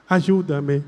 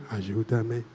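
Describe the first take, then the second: First: Said in the usual way. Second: Much lower and softer ayúdame; hushed echo. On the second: Shown as a demonstration. Priest gives the girl's soft reply to the prayer. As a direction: murmur it back. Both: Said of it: "Empezamos otra vez".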